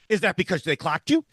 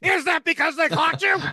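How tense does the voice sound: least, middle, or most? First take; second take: least; most. First: The voice sounds only slightly tense. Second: The voice sounds at its most tense. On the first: "in an increasingly tenser voice" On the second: "in an increasingly tenser voice"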